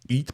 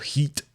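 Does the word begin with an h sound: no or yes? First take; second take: No; Yes. First: The word starts with a vowel, no h. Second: The word starts with an h sound. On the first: The speaker calls it right. "eat, pas heat" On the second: The speaker calls it wrong. "Difficile pour un francophone de ne pas prononcer le H"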